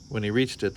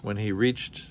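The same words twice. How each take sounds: First: Said in the usual way. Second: "reached" cut short, said as "reach" without the final t; stumbled "reached" dropping its ending; clipped slip. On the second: Real, not acted. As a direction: reader flubbing the word "reached" before correcting.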